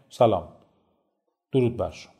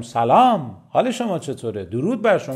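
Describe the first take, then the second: First: Subdued, low-energy hello with a long pause; indifferent greeting. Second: Lively, engaged greeting with swooping tune; welcoming greeting. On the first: Trainer shows same content delivered differently, subdued and indifferent. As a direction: drop the greeting without any engagement. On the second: Trainer shows how delivery changes a greeting, lively and welcoming. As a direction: greet them with energy on سلام and درود. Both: Shown as a demonstration.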